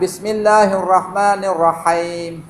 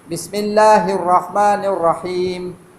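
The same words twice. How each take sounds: First: The last syllable sounds like haim. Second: The last syllable sounds like him. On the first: The speaker calls it wrong. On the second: The speaker calls it right. "Ha bawah hi, him"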